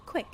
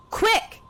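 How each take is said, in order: First: Said in the usual way. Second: Much higher and louder, barking the order; sharp shout. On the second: Acted. The villainess shouts at the agent to hurry. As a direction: snap it out at full volume.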